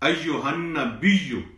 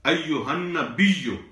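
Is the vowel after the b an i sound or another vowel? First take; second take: i vowel; i vowel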